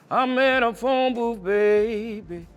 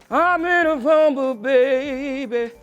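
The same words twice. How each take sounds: First: It is voiced low, vibrating in the chest. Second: It is voiced higher, nasal, resonating in the head. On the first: "Chest voice is" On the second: "And a head voice is, ... It's more nasally"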